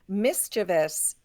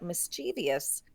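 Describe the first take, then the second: First: The word is said with three syllables. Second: The word is said with four syllables. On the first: "is the standard pronunciation" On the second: "has a long history"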